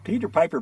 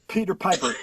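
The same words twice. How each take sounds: First: It is said smiling, with softened P sounds. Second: It is said plainly, with hard P puffs. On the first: The speaker calls it right. "But if you smile, smile" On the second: The speaker calls it wrong. "You can feel the air on your hand if you're going Peter Piper"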